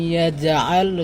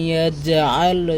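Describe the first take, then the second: The two takes are said the same way.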